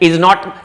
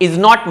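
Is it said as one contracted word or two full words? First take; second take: full; full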